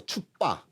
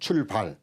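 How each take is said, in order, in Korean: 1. 끝의 ㄹ 소리가 빠져요. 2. 끝의 ㄹ 소리가 발음돼요.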